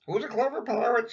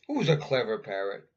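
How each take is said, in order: First: High, louder squawky parrot mimic; high parrot copying the question. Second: Said in the usual way. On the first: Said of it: "says Polly".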